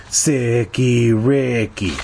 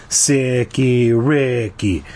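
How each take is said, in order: The two takes are said the same way.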